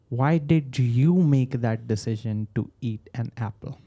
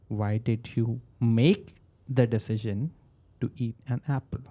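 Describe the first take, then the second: First: The word "you" carries the strongest stress. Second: The word "make" carries the strongest stress. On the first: It questions why this person in particular decided. "why did you, when I when I increase my tone on you" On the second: It questions whether the decision should have been made. "when I say make, then should I not have?"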